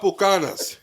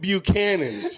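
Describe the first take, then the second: First: The name is said in a Spanish-style pronunciation. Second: The name is said in an English pronunciation. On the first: This is how the Latin community calls it. The speaker calls it wrong. "It is not Bucanas" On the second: This is the brand's actual name. The speaker calls it right. "It's fucking Buchanan's"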